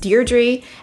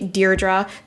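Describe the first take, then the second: First: The name is said the British way. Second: The name is said the American way. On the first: "in the U K, I've heard it" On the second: "in the U S, it's usually"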